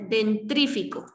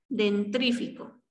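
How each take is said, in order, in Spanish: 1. El sonido r va justo después de la t. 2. El sonido r va justo después de la t.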